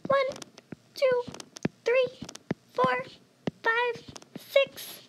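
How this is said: The counting is spoken in a high voice. These numbers count the numerator. "in a high voice"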